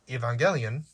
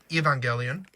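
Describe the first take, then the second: First: The word is said with a slight accent. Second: The first E is said as a long vowel. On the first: "sort of like I have a bit of an accent" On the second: "pronouncing the hard E at the front"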